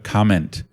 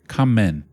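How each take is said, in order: First: The word ends with an N-T sound. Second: The final T drops, sounding like common. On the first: "instead of comment" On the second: "they don't do like an N T ... It sounds like the word common"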